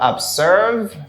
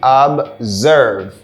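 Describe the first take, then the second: First: The middle consonant is a hissing s sound. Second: The middle consonant is a buzzing z sound. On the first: The speaker calls it wrong. "C'est pas observe" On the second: The speaker calls it right. "Here we have the z sound"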